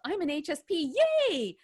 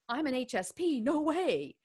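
First: It sounds happy and excited. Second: It sounds unhappy and rejecting.

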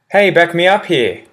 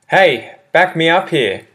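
First: It is said at a fast pace. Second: It is said at a slow, careful pace.

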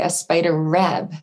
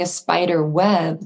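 First: The last word begins with an R sound. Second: The last word begins with a W sound. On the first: The speaker calls it wrong. "R is much more difficult to produce than W" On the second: The speaker calls it right. "instead of saying a spider web"

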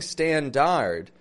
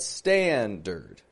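First: The second syllable has a full vowel. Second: The second syllable has a reduced schwa vowel. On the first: The speaker calls it wrong. "notice I'm not saying standard" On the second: The speaker calls it right. "That is a schwa R sound in the second syllable of standard"

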